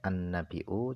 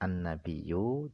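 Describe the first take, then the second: First: The middle consonant is a glottal stop. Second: The middle consonant is a doubled y sound. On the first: "jika tidak ingin mentasdidkan" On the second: "jika ingin mentasdidkan"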